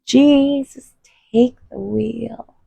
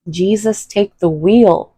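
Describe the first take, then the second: First: Higher pleading. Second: Said in the usual way. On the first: Acted. Pleading prayer, repeated higher.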